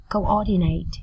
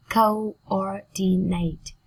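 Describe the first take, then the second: First: Said in the usual way. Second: "coordinate" slowly split, CO, OR, DI, NATE; slow teaching breakdown of "coordinate"; syllable by syllable. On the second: Shown as a demonstration. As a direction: draw out each syllable of "coordinate".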